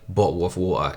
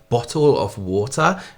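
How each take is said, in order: First: The t's are dropped from the words. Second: The t's are pronounced clearly and crisply. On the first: It does not sound well spoken. The speaker calls it wrong. "an extremely posh person wouldn't say" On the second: It sounds well spoken. The speaker calls it right. "when you pronounce your t's, is well spoken"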